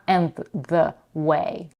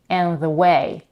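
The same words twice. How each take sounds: First: The words are said separately without blending. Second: The words are blended together like one word. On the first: The speaker calls it wrong. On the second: The speaker calls it right. "she blends the d consonant at the end of and with the next sound"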